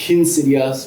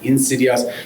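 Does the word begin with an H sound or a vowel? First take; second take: H sound; vowel. First: The word begins with an aspirated H sound. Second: The word begins directly with a vowel. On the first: The speaker overdoes the aspiration to sound refined. The speaker calls it wrong. "that articulation of the H is marking difference" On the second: This is the form that was intended. The speaker calls it right. "when he meant"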